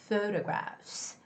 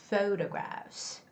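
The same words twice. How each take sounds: No difference in how they are said.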